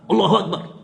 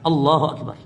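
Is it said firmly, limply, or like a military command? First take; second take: military; firmly. First: It is barked like a soldier's command. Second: It is said firmly and decisively.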